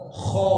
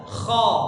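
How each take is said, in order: First: It is said with rounded, pushed-out lips. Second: It is said with relaxed, unrounded lips. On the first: The speaker calls it wrong. "jadi bukan gha, kha, gha" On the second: The speaker calls it right. "tapi biasa, bibirnya biasa"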